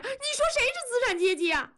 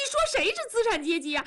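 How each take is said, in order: First: Even shriller, very high wounded cry; escalating, near tears. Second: High, fast wounded protest; near tears. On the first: Wife repeats challenge to husband, very high tearful outburst. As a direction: push the question up to a peak of hurt. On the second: Wife stung by husband's class insult, high tearful protest. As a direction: challenge him, on the verge of crying. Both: Acted. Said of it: "文丽要哭了".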